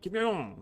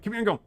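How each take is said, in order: First: The name is said more slowly and carefully. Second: The name is said quickly, run together. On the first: The speaker calls it right. "I think they say it like" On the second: The speaker calls it wrong. "I'm saying it pretty fast"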